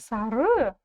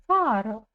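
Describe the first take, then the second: First: The stress is on the second syllable. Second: The stress is on the first syllable. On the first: The speaker calls it wrong. "Не Сары" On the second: The speaker calls it right. "ударение будет стоять на букве А"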